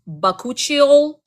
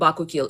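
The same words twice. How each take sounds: First: The 'koo-chee' part is clearly pronounced. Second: The 'koo-chee' part is missing or blurred. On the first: The speaker calls it right. "It has to have kuchi in it" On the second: The speaker calls it wrong. "It's not"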